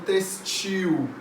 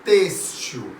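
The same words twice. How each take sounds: First: Textil wrongly said as "tes-TIL"; stress on last syllable. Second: Têxtil said as "TÊS-til"; stress on first syllable. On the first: Teacher quotes what many people say, textil stressed on TIL. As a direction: put the weight on TIL in textil. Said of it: "muita gente falando textil". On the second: Teacher gives the correct pronunciation, têxtil stressed on TÊS. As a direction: hit TÊS in têxtil, let the end drop. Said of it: "A pronúncia correta da palavra é". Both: Shown as a demonstration.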